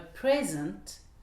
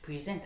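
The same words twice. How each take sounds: First: The stress is on the first syllable. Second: The stress is on the second syllable. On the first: It names a gift. "un présent, un cadeau" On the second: It means to introduce someone. "présenter quelqu'un"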